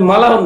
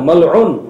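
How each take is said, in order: First: An 'a' vowel follows the 'l'. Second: A throat sound follows the 'l'. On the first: The speaker calls it wrong. "আসলে মালাউন না" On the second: The speaker calls it right. "আসলে মালউন আইন"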